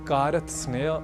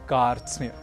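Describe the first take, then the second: First: Extra vowels break up the consonant cluster. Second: The consonants are joined without vowels between. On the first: The speaker calls it wrong. "न कहकर" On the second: The speaker calls it right. "हमें कहना है"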